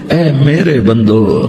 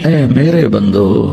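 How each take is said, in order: No difference in how they are said.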